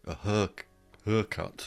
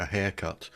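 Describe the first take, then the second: First: Haircut said northern English, like "hurr-cut"; northern English accent. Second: Said in the usual way. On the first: Shown as a demonstration. Guest showing how the north of England says it, northern English accent. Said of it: "as they may say in the north of England".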